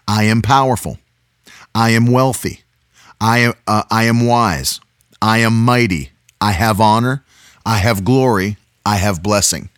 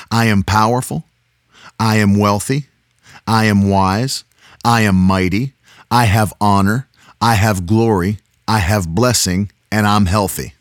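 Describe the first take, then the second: First: Firm declarations, each line falling; booming motivational speech. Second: Steady group confession; booming motivational speech. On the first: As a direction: lead a nightly confession. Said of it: "Repeat after me". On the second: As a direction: chant it together with children. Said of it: "Say it with me, girls". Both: Shown as a demonstration.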